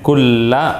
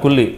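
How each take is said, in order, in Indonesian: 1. Kata itu berakhiran vokal 'a'. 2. Kata itu berakhiran vokal 'i'. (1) "kulla bukan kulli" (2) "Itu salah"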